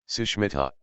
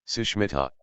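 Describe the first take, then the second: Both takes have the same delivery.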